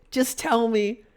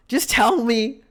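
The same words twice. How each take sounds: First: High-pitched, insistent appeal; frustrated but held in; exasperated plea. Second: Higher and more forceful plea; punched-out frustrated appeal; insistent demand. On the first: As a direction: beg them to come out with it. Exasperated plea to absent patient. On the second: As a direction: press the point, exasperated. Same plea repeated, more forcefully. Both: Retold or imitated.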